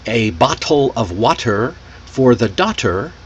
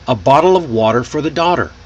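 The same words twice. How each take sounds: First: The t sounds are crisp, clearly released t sounds. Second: The t sounds are quick soft flaps, like d. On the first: "Instead of saying" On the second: "now try the American sound"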